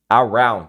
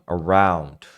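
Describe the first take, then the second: First: The first vowel is full and loud. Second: The first vowel is tiny and weak. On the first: The speaker calls it wrong. "Não" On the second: The speaker calls it right. "É quase um A"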